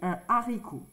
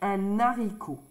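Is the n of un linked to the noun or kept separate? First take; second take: separate; linked. First: The n is not linked to the next word. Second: The n is linked to the next word. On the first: The speaker calls it right. "on va dire un haricot" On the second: The speaker calls it wrong. "On ne va pas dire un haricot"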